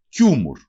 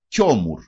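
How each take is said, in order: First: «Κιούμουρ» as KYU-mur, with u first; standard form. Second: «κιόμουρ» as KYO-mur, with o first; dialect variant. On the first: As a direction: round the first vowel of «Κιούμουρ» to u. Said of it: "Αναφέρεται όμως και ως κιόμουρ". («Κιούμουρ» με ου στην πρώτη συλλαβή) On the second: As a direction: open the first vowel of «κιόμουρ» to o. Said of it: "Αναφέρεται όμως και ως". («κιόμουρ» με ο στην πρώτη συλλαβή) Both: Shown as a demonstration.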